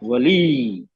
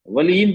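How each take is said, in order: First: The word ends on a vowel, with no n. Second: The word ends with an added n sound. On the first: The reader stops at the end of the word. The speaker calls it right. "हल्की सी ई की आवाज आई, हाँ रुक जाएंगे वहां पे" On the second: The word is read as if continuing on. The speaker calls it wrong. "वलीन तो नहीं पढ़ेंगे"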